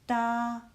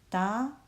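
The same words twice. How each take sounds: First: The pitch stays high and level. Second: The pitch rises from middle to high.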